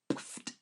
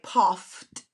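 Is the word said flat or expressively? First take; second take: expressively; flat. First: It is acted out with expressive sound effect. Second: It is read flatly, just as written.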